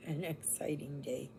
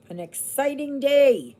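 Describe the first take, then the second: First: Low, soft flat-toned repeat; dry sarcastic mutter; deadpan. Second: High, loud mock excitement; sarcastic cheer, pitched high and loud; mock excited. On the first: Pretend. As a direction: let the enthusiasm drop away. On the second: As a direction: oversell a dull day as thrilling. Mock enthusiasm about dull day.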